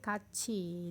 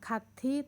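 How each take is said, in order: First: The middle consonant is a 'ch' sound. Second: The middle consonant is a plain 't' sound. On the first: The speaker calls it right. "tapi kaci dibacanya" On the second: The speaker calls it wrong. "Bukan kati"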